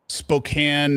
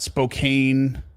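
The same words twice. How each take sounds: First: The name is said the local way. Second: The name is said the outsider way. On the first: The speaker calls it right. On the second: The speaker calls it wrong.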